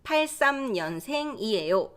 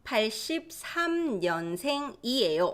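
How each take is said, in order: First: 팔삼 년생이에요 said with the short year 팔삼; clipped year form 팔삼, teacher demo; 팔삼 said as two quick digits. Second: 팔십삼 년생이에요 with the full year 팔십삼; 팔십삼 read out in full; full form. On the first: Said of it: "Or just 팔삼". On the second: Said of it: "So you can also say". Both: Shown as a demonstration.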